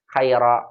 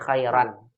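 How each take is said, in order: First: The word ends on a bare vowel. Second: The word ends with an n sound. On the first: The speaker calls it wrong. "Bukan dibaca" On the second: The speaker calls it right. "tapi khairan"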